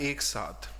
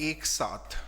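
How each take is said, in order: The two takes are said the same way.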